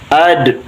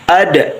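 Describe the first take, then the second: First: The final d is clipped with no echo. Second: The final d bounces with a short echo. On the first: The speaker calls it wrong. "jangan ad" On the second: The speaker calls it right. "Tapi ada. Nah, pantul balikan lagi"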